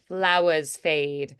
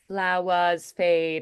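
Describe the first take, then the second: First: The R sound is soft and barely held. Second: The same.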